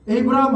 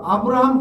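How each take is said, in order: First: The first vowel sounds like 'ay'. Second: The first vowel sounds like 'ah'. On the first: "이거를 에이브라함 하기 싫다" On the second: "아브라함 그러면 어떻게 할 거예요? 틀렸다 할 수가 없잖아요"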